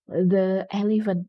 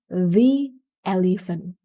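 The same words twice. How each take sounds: First: The article is said with a short 'thuh' sound. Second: The article is said with a long 'thee' sound. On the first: The speaker calls it wrong. "nggak boleh bilang the elephant, no" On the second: The speaker calls it right. "Tapi the elephant"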